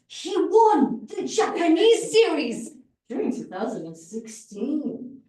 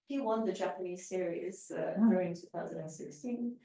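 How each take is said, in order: First: It is said expressively, with strong emphasis. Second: It is said flatly, with little vocal variety. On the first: "imagine the difference" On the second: "this this is what it looked like"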